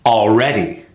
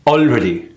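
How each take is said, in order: First: ALREADY with long, punched second syllable; correct stress on already. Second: ALREADY short, without a strong second syllable; mis-stressed already. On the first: Coach modelling the right rhythm, stressed al-READ-y. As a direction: stretch REA in ALREADY. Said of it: "See the difference?". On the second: Coach showing the often-missed word, mis-stressed ALREADY. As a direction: clip REA short in ALREADY. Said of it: "short word that's often missed". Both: Shown as a demonstration.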